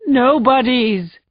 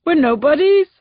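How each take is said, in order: First: Slow broken repeat. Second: High, loud cry on nobodies; anguished shout. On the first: Husband repeating to the sergeant, broken and slow. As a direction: let the word collapse. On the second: Husband shouting at the sergeant, anguished. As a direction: hurl the word at her. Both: Acted. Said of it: "before shouting".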